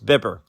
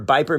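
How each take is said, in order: First: The first vowel is short, like in zipper. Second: The first vowel is long, like eye. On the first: The speaker calls it right. "No, it's Bipper" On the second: The speaker calls it wrong. "you still work for Biper Media?"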